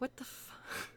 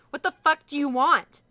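First: It is said as a frightened whimper. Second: It is said in an angry, commanding tone.

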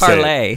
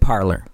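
First: It is said like 'parlay', ending in an ay sound. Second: It is said like 'parlor', ending in an r sound. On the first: The speaker calls it right. "It's parlay" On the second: The speaker calls it wrong. "I like making fun of them calling it parlor"

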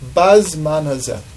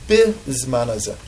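First: The first word begins with a 'ba' sound. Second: The first word begins with a 'bi' sound. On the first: It happened at this time of year, long ago. "So the simple understanding is Bazman hazeh means at this time of the year" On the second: It also happens in the present time. "other people say it with the nekudot a little bit differently and say it Bizman hazeh"

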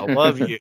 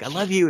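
First: It is said grudgingly and annoyed. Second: It is said warmly and sincerely.

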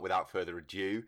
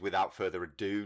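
First: The last word sounds like 'adieu'. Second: The last word sounds like 'ado'. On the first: The speaker calls it wrong. "not without further ado" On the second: The speaker calls it right. "that expression is without further ado"

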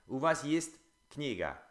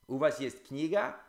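First: It has the intonation of a statement. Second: It has the intonation of a question.

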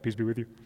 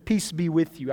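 First: It is said in a creepy, eerie tone. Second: It is said in a plain reading tone.

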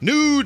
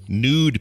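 First: The word is exclaimed loudly with lively energy. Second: The word is said flatly, without extra energy. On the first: The speaker calls it right. "There we go" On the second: The speaker calls it wrong. "How come he didn't say it like that?"

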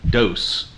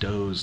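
First: The name is said with an S sound. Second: The name is said with a Z sound. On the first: The speaker calls it wrong. "not Dohse" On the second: The speaker calls it right. "It's actually pronounced Dohse, like a Z sound"

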